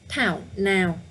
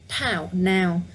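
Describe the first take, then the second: Both takes have the same delivery.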